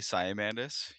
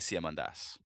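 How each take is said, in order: First: The name is said the Canadian way. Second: The name is said the Greek way.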